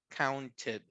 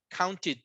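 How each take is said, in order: First: The ending is a full id syllable. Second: The ending is a bare t sound, no vowel. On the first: The speaker calls it right. "es id la terminación" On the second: The speaker calls it wrong. "No es un sonido de T tampoco"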